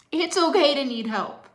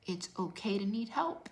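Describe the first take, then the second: First: High, loud cry of "okay"; a real, fervent shout; passionate shout. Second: Said in the usual way. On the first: Real, not acted. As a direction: belt it out to the back row. Coach repeats, then shouts it.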